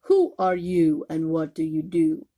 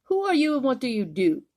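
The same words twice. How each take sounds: First: Roaring lions. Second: High, quick and louder, snooty giraffe; not very nicely. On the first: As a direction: roar the question like a big cat. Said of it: "the lions roared". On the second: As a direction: look down your long neck and ask it sharply. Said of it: "but not very nicely". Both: Acted.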